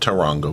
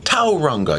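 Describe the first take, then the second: First: The stress is on a later syllable. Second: The stress is on the first syllable. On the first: "I've been saying it Taronga way" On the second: "You put the emphasis on the first syllable"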